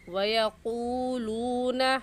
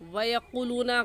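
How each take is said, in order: First: The vowel after q is held long. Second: The vowel after q is cut short. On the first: The speaker calls it right. "सही है" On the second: The speaker calls it wrong. "गलत है"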